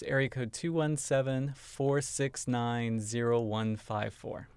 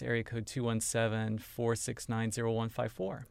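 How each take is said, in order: First: The number is said more slowly. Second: The number is said at normal speed.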